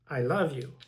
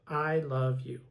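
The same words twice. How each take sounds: First: The words run together without breaks. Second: The three words are said separately.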